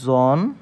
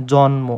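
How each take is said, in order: First: জন্ম pulled apart, জন held, then ম after a long pause; syllable demonstration. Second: Said in the usual way. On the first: Shown as a demonstration. Teacher answering how it is pronounced, জন্ম in separated syllables. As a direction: split জন্ম slowly into জন and ম. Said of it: "উচ্চারণটা কেমন হবে?". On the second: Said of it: "তখন উচ্চারণটা কেমন হবে?".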